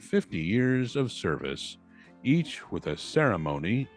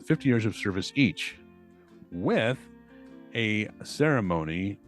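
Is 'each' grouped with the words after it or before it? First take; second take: after; before. First: The break comes before 'each'. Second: The break comes after 'each'. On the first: The speaker calls it wrong. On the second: The speaker calls it right.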